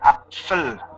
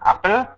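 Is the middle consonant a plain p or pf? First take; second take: pf; plain p. First: The middle consonant is a pf sound. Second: The middle consonant is a plain p sound. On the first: This is the southern dialect form. "logat-logat selatan bilang apfel" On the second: This is the northern dialect form. "logat-logat utara juga bilang apel"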